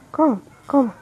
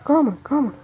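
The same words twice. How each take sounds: The two takes are said the same way.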